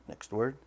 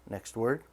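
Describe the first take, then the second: No difference in how they are said.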